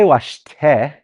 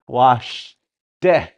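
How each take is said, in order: First: The consonant after the s sounds like a plain t. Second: The consonant after the s sounds closer to d. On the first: The speaker calls it wrong. "We don't say washte" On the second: The speaker calls it right. "We say washte. It's a T D in there again"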